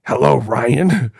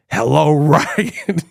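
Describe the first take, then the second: First: Slow, lower mock killer greeting; a hint of the creepy phone caller; Ghostface voice. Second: Slow mock killer greeting through laughter; Ghostface voice. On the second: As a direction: drag out the hello like the masked caller. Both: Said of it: "So he could be like".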